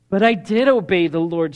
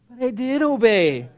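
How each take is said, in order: First: It is read in a plain, neutral tone. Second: It is said in a whiny, complaining tone.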